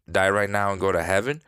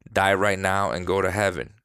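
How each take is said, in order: First: "Die right now and go to heaven" with a rising question tune; quicker, lifting on "heaven" as a question; questioning repeat. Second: Said in the usual way. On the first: Retold or imitated. Reader voices the child repeating it back, as a question.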